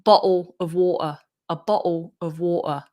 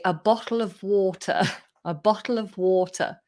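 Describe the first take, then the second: First: Southern London accent, glottal T in "Bottle"; London glottal stops for each T. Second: Careful British "bottle of water"; British accent with a clear T in bottle. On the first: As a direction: drop the T in "Bottle" and "water" like a Londoner. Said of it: "like, London accent". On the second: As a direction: say it in general English, T pronounced. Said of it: "the way that Brits say". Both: Shown as a demonstration.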